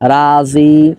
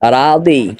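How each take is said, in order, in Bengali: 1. মাঝের ব্যঞ্জনটি সাধারণ j ধ্বনি। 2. মাঝের ব্যঞ্জনটি d ধ্বনি। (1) "এটা হলো বাংলা উচ্চারণ" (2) "এরকম উচ্চারণ করবেন রাদি"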